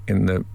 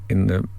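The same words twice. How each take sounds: No difference in how they are said.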